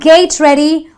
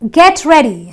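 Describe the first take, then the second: First: The first word has a long ay vowel. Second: The first word has a short eh vowel. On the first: The speaker calls it wrong. "It's not gate ready" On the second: The speaker calls it right. "So that's the eh sound"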